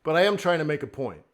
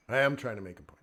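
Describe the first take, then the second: First: Said in the usual way. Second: Low, soft restatement; toned-down, lower voice; not yelling. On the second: Real, not acted. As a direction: repeat the point with restraint, quietly. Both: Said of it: "I'm not yelling".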